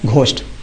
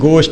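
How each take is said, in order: First: The word starts with a breathy gh sound. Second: The word starts with a plain g sound. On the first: The speaker calls it wrong. "ये गलत है" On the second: The speaker calls it right. "ये गोस्ट लिखा गया है"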